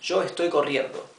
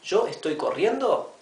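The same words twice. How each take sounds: First: It is said with statement intonation. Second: It is said with question intonation. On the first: It asserts a fact. "Es una afirmación" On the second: It asks a question. "Lo único que hice fue cambiar la entonación"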